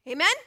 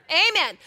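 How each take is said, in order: First: AMEN with a rising lift; questioning prompt. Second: AMEN loud, high and falling, with a laugh; hearty, amused AMEN that lands hard; emphatic repeat. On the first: Prompts congregation for a response. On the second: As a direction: punch out AMEN as a firm answer. Repeats the prompt after weak response. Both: Real, not acted.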